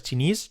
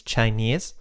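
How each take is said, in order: First: "Chinese" with a Spanish i, /tʃinis/; "Chinese" said chi-nis; wrong Chinese. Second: "Chinese" with the diphthong "ai", /tʃaines/; "Chinese" said chai-nis; correct Chinese. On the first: ("Chinese" con i española) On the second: ("Chinese" con diptongo ai) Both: Shown as a demonstration. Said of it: "No es Chinese".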